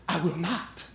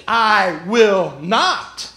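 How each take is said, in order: First: Low, hushed refusal; quiet insistence. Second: "I will not" very slow, each word stretched out on its own; defiant refusal. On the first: Peter answering Jesus a second time, quiet stubborn refusal. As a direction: dig in softly, voice dropped. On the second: Peter contradicting Jesus, "I will not" slow and emphatic. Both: Acted.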